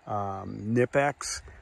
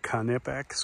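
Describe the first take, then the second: First: The word starts with an N sound. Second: The word starts with a hard K sound.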